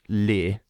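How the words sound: It is pronounced like an English word. The speaker calls it wrong. "So it looks like in English, leer. Don't pronounce it like that"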